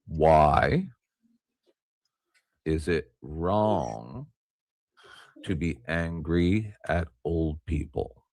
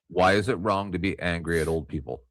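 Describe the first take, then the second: First: It is said very slowly. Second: It is said at a normal pace.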